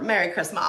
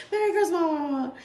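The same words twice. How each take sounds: First: Said in the usual way. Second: Higher, giggling through the words; can't say it without laughing. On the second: Real, not acted. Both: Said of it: "let's try this again".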